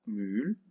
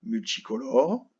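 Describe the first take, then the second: First: Syllable by syllable. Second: Said in the usual way. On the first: Shown as a demonstration. Sounding it out while writing it.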